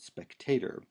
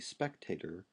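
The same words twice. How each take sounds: First: The stress falls on the middle syllable. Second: The stress is not on the middle syllable. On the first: The speaker calls it right. "but spectator. Okay, because this vowel is long" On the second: The speaker calls it wrong. "we don't say spectator"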